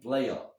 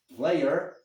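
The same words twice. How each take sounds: First: The word ends with an 'ah' sound. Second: The word ends with an 'er' sound. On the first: "se transforma em player" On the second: "palavras que terminam em E R"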